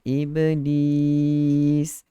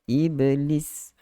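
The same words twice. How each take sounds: First: The second vowel is held long. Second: The second vowel is short and clipped. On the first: This follows the Arabic recitation rule. The speaker calls it right. "Bacaan dia dalam tajwid kena panjang" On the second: This is the everyday Malay way of saying it. The speaker calls it wrong. "Dia tidak iblis"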